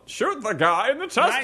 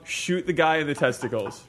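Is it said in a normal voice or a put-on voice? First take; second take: put-on; normal. First: It is said in a put-on voice. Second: It is said in his normal voice.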